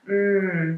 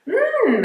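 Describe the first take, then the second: First: The mm sounds serious. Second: The mm sounds interested. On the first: The listener takes the matter gravely. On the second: The listener is curious about what is said. "it's more of an interested sound"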